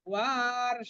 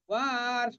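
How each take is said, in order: Both takes have the same delivery.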